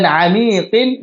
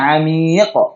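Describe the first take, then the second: First: The word ends with an added 'in' syllable. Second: The word ends on a bare q consonant. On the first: The reading continues into the next word. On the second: The reading stops on this word.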